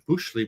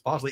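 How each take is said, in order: First: The first syllable has an 'oo' vowel. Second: The first syllable has an 'oh' vowel. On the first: This is how the spelling looks. The speaker calls it wrong. "Looks like Bushley" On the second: This is the actual pronunciation. The speaker calls it right. "but it's Bosley"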